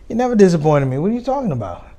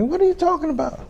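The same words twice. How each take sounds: First: Higher, louder protest; a father protesting to his daughter; upset dad. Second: Squeaky baffled dad. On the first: Dad reacts to daughter's worry. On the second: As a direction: voice leaps very high in comic disbelief. Dad's baffled reply, squeaky. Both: Retold or imitated.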